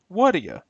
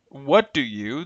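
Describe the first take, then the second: First: The words are reduced and blended together. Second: All three words are said fully and separately. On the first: "becomes what'da ya" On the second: "original forms"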